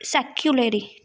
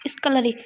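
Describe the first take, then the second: First: सेक्युलरी said as se-kyu-la-ri, with a y glide after the s; the wrong way she used to say it, सेक्युलरी; सेक्युलरी, pronounced se-kyoo-luh-ree; old wrong pronunciation. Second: स्कलरी said as s-ka-la-ri, no y glide; the new way she just learned, स्कलरी; स्कलरी, pronounced skuh-luh-ree; corrected pronunciation. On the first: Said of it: "मैं बोलती थी". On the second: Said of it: "इसको स्कलरी बोलते हैं". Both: Shown as a demonstration.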